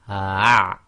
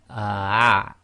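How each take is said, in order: The two takes are said the same way.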